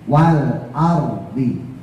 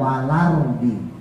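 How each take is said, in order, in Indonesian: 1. Bunyi L jelas dan terdengar tegas. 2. Bunyi L menyatu dengan suku kata berikutnya. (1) "harus jelas L-nya" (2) "kadang-kadang orang bacanya walardi, jadi la-nya itu gak jelas"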